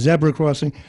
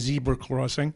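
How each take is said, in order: First: It is said with a British accent. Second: It is said with an American accent.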